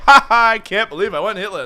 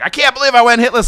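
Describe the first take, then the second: First: It is said in an amused, laughing tone. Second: It is said in an angry tone.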